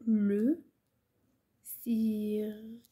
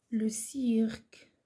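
First: Very slow, pause after لو; word-by-word dictation. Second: Slow, drawn-out dictation. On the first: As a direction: say لو, wait, then draw سيرك right out. Repeats word by word for writing. (إملاء بطيء جدا كلمة بكلمة) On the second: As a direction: dictate it slowly as one phrase. Dictating words for pupils to write. (إملاء بطيء ومتصل) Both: Shown as a demonstration.

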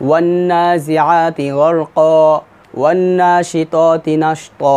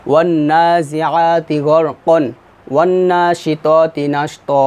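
First: Very slow chant, "গরকা" ending long and open; measured Qur'an chant, long open "গরকা" and "নাশতা"; recitation with waqf. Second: Very slow chant with "গরকন" closed on n; measured Qur'an chant, n kept in "গরকন"; recitation without waqf. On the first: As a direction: recite slowly, stopping on a stretched "গরকা" without n. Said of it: "ওয়াকফ ধরে পড়তাম". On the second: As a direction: recite slowly, sounding the n of "গরকন". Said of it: "ওয়াকফ না ধরলে আমাদের কন". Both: Shown as a demonstration.

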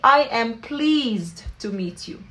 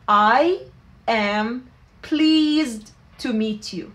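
First: Slow, clearly spaced English phrase; slow teaching model. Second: I, am, then pleased to meet you, each word set apart. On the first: Teacher repeating the phrase slowly for students. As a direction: spell it out slowly. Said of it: "بنحكي". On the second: Teacher splitting the phrase word by word for learners. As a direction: break it into words with pauses. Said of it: "فبنحكي". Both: Shown as a demonstration.

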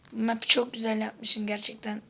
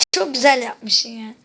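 First: Said in the usual way. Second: Loud, slow mock compliment to the map maker, "güzel" stretched; loud sarcastic praise to the map maker. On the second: Real, not acted. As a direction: sneer the praise loudly. Sarcastic praise after cursing.

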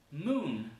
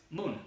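First: "Moon" with held M and N; lengthened English "Moon"; long M and N. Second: "moon" with quick, unheld M and N; brief "moon", no humming; short, wrong moon. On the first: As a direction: let "Moon" hum at both ends. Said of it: "son larguísimas". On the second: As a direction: cut "moon" short, Spanish-style consonants. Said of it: "No es moon". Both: Shown as a demonstration.

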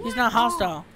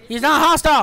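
First: Said in the usual way. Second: Louder, higher "He's not hostile"; raised, emphatic voice; excited announcement. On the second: Real, not acted. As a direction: call out the happy discovery. Repeats the discovery louder.

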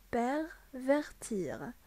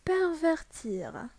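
First: Slow repeat. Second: Slow model word. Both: Shown as a demonstration. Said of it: "عاودها, s'il vous plaît".

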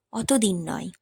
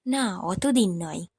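First: Musing repeat. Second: Slow musing. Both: A narrator's reading. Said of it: "সেও তো দেড় দু বছর আগের কথা".

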